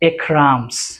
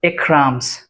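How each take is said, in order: First: The verb shrinks to an s on the name. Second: The same.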